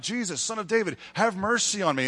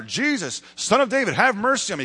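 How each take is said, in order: First: Calling out. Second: High, loud acted cry for help; calling louder and louder. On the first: Acted. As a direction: imitate a beggar calling out for mercy. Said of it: "he starts calling out". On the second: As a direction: imitate a beggar crying out insistently over the crowd. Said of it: "he just gets louder and louder".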